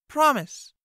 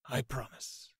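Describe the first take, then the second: First: Much higher, louder demand; girl commanding the knight to promise. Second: Bow and swear it softly; solemn vow. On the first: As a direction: order him to swear. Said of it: "Fee commanded". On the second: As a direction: knight quietly pledging to the girl. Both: A narrator's reading.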